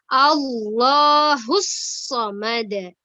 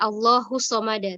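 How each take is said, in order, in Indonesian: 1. Konsonan yang digandakan ditekan kuat. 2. Konsonan yang digandakan ditekan lemah. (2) "tasdidnya kurang ditekan"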